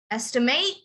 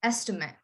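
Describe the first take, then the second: First: "estimate" lifted at the end on a long "mate"; verb stress. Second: "estimate" stressed first, weak short ending; noun stress. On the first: Teacher contrasting verb with noun, stress on the end. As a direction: stress the final "ate" of "estimate", rising. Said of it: "you would emphasize the end". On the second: Teacher contrasting noun with verb, stress on the beginning. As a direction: punch the start of "estimate" and drop to a soft low "mit". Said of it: "you would emphasize the beginning". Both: Shown as a demonstration.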